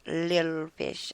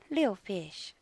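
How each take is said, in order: First: The first word is said in full, two syllables. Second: The first word is clipped to one short syllable. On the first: The speaker calls it wrong. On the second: The speaker calls it right.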